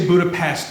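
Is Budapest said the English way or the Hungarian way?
English. The city name is said the English way. The speaker calls it wrong. "if you say Budapest, they'll get very upset with you"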